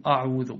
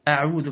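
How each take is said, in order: First: "أعوذ" opened on a dark, backed a; wrongly heavy hamza. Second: "أعوذ" opened on a thin front a; light hamza. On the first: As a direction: thicken the start of "أعوذ". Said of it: "فلا تقل أعوذ". (تفخيم همزة "أعوذ") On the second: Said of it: "فرقق هذه الأحرف". (ترقيق همزة "أعوذ") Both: Shown as a demonstration.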